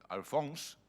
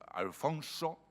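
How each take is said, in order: First: The final vowel is dropped, ending in 's'. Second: The word ends with a final 'o' vowel. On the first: The assumed medieval pronunciation. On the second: The modern pronunciation.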